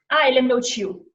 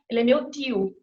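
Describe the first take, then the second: First: The t in tio sounds like ch. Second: The t in tio is a plain t.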